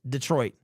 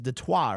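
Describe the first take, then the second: First: The name is said with an American English pronunciation. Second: The name is said with a French pronunciation. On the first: "The correct pronunciation of the word Detroit is" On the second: "in French is Detroit or something like that"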